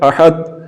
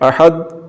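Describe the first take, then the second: No difference in how they are said.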